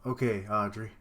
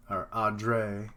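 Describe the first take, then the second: First: Said in the usual way. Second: "Audrey" slowly stretched out; drawn out. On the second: Shown as a demonstration. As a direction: draw out the name "Audrey". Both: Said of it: "It's weird how it's so drawn out".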